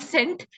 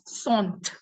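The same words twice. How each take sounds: First: The word is said with English sounds. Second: The word is said with French sounds. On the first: The speaker calls it wrong. "in English, we'd say cent. It's not cent" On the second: The speaker calls it right. "it's cent. Cent is one hundred"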